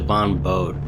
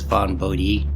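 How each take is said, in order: First: The final e of the surname is silent. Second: The final e of the surname is pronounced. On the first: The speaker calls it wrong. "I always pronounce it Von Bode" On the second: The speaker calls it right. "to pronounce the hard E. So I guess it's Von Bodhi"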